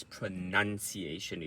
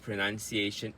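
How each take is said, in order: First: Pronunciation said with NUN, not noun; correct pronunciation. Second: Pronunciation said with NOUN as in pronounce; wrong pronunciation. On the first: Coach correcting the mistake, pronunciation said with a nun syllable. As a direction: say pronunciation as pro-NUN-ciation. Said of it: "the correct pronunciation is not". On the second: Coach showing learners the mistake, pronunciation said with a noun syllable. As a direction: say pronunciation as pro-NOUN-ciation, rising. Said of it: "is not a pronunciation". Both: Shown as a demonstration.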